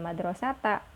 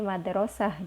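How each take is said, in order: First: The word ends with a t and vowel. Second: The word ends with an h sound. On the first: The speaker calls it wrong. "bukan madrasata" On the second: The speaker calls it right. "tapi madrasah di waqaf"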